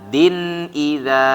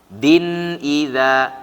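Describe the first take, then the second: The two takes are said the same way.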